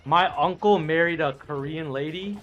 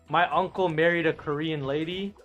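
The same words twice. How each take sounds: The two takes are said the same way.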